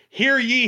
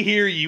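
First: Loud herald's hear ye, higher pitch; town crier. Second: Town crier. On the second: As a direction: call the last hear ye down to a close. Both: Pretend. Repeated herald call.

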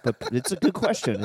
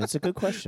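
First: Said in the usual way. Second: High, odd put-on repeat; mock-serious echo; playful put-on voice; silly voice.

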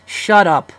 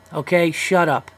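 First: Louder, higher snap of shut up. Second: Slower, firmer Okay, shut up. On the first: Host shouting down imagined women critics, loud. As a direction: cut the critics off hard. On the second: Host slowly dismissing imagined critics, deliberate. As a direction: lay it down slowly and flatly. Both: Acted.

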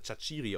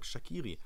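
First: Chachiri said with a ch in the middle; believed correct pronunciation. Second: Shaqiri said with a hard k in the middle; commentators' pronunciation. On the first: Host sure of the right version, Chachiri with "tsch". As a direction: say Chachiri as sha-CHEE-ree. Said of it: "ausgesprochen wird". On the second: Host reporting what all commentators say, Shaqiri with a k. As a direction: say Shaqiri as sha-KEE-ree. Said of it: "sie nennen ihn einfach". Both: Shown as a demonstration.

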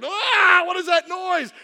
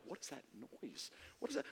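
First: High, loud outburst; acted motherly exasperation; mom's exasperated cry. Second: Very soft, low wondering; hushed, puzzled murmur; puzzled onlookers. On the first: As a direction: cry out as if the noise is unbearable. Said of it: "My mom's like". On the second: Retold or imitated. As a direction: ask it under your breath. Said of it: "people are like".

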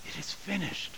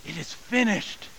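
First: "It is finished" said much softer, falling; hushed repeat. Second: Said in the usual way. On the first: Shown as a demonstration. Pastor repeating Jesus' words, reverent hush. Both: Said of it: "the words are the same".

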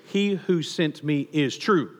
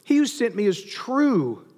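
First: Savoring the phrase. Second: Slow, higher proclamation; crying out. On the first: Shown as a demonstration. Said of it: "I love this phrase". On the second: Acted. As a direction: lift it up and declare it to the crowd. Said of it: "He cries out".

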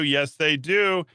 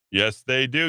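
First: Slower, higher, mock-knowing "Yes, they do" with a falling end; slow emphatic. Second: Said in the usual way. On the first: Shown as a demonstration. Host repeating himself for a slow, knowing emphasis. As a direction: drag it out like a knowing wink. Repeats line two ways.

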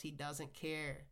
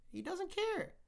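First: Said in the usual way. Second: Much higher exasperated repeat of "He doesn't care"; emphatic outburst. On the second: Real, not acted. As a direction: fling "He doesn't care" up high in disbelief. Repeated line, low then high.

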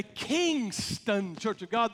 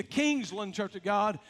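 First: Kingston drawn out on its first syllable; stress on Kingston. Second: Said in the usual way. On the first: Shown as a demonstration. Preacher telling two similar church names apart, stress on Kingston. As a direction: lean hard on the name Kingston.

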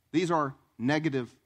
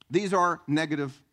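The two takes are said the same way.

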